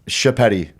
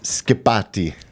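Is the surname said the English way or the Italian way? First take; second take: English; Italian. First: The surname is said with English pronunciation. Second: The surname is said with Italian pronunciation. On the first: "is how you you kind of just" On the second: "the proper way"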